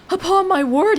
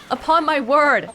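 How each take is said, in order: First: High, louder "Upon my word"; hammed-up Victorian surprise; still surprised. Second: Slow, drawn-out "Upon my word"; mock Victorian gasp. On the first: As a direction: exclaim it again, pitched up in astonishment. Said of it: "he repeated, still surprised". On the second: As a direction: let it out on a slow gasp of astonishment. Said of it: "gasped Filson".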